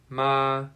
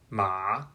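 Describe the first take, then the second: First: The pitch stays high and level. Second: The pitch dips low and then rises. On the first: "The first tone is high" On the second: "the third tone is a dipping sound"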